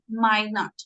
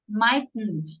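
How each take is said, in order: First: The two words are said fully and separately. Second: The two words are contracted into one syllable group. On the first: The speaker calls it right. "We always say might not" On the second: The speaker calls it wrong. "the short form of might not"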